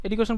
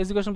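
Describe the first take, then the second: First: এডুকেশন with a hard d, "edukeshon"; first accepted pronunciation. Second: এডুকেশন with a j, "ejukeshon"; second accepted pronunciation. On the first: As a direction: keep "du" unsoftened in এডুকেশন. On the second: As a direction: soften "du" to "ju" in এডুকেশন. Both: Shown as a demonstration. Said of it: "দুইটা right, এডুকেশন বলতে পারেন".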